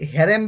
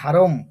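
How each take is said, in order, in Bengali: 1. প্রথম সিলেবলটি 'heh' এর মতো শোনায়। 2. প্রথম সিলেবলটি 'hah' এর মতো শোনায়। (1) "আমরা হেরেম বা হারিম বলবো" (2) "কিন্তু এটার অ্যাকচুয়ালি উচ্চারণ হয় হারম"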